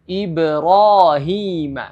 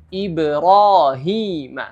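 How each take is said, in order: First: The long vowels are held only briefly. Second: The same.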